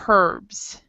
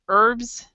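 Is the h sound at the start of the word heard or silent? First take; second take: heard; silent. First: The word starts with an h sound. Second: The word starts without an h sound. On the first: This is how some other people say it. "other people s- pronounce it" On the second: This is the speaker's own way of saying it. "I pronounce it without the H, H sound"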